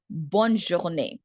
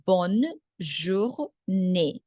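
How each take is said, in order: First: Said in the usual way. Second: Bonne journée very slowly, in separate pieces; bonne, pause, jour, pause, née; syllable by syllable. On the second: Shown as a demonstration. Teacher breaks phrase into syllables.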